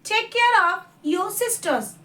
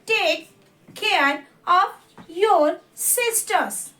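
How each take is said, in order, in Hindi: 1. यह वाक्य तेज़ बोला गया है। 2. यह वाक्य धीरे बोला गया है। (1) "दो बार मैं इसको फास्ट एज अ प्रोनाउंसिएशन पढ़ूंगी" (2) "मैं एक बार स्लो पढ़ूंगी"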